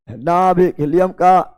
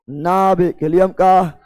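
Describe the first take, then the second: No difference in how they are said.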